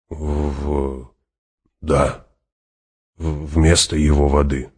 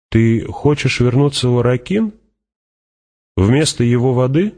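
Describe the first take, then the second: First: Faltering. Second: High, rising question. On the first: Hawat echoes the Fremen's words, hesitant and faltering. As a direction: stumble on the first sound, then settle downward. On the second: Fremen questions Hawat on water bond, high and rising. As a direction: lift the pitch sharply towards the end. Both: Acted.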